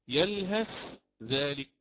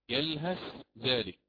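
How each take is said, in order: First: The th sound is pronounced clearly before dh. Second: The same.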